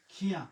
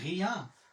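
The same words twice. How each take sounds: First: খিয়া opened with a voiceless "kh"; mistaken kh sound. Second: রিয়া opened with a voiced throaty r; French r. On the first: Teacher warning of a learner error, kh-sound খিয়া. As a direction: say খিয়া, hardening the r into kh. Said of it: "যখন বলবেন খিয়া". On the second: Teacher contrasting two words for students, French-r রিয়া. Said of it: "রিয়া রে যখন বলবেন খিয়া". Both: Shown as a demonstration.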